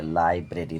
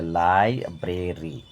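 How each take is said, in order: First: Said in the usual way. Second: লাইব্রেরি slow as লাই, ব্রে, রি; split in three syllables. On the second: Shown as a demonstration. Teacher breaking a word for pupils, লাইব্রেরি slowly in parts. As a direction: separate the beats of লাইব্রেরি. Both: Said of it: "তিনবারে ভেঙে উচ্চারণ করা হয়".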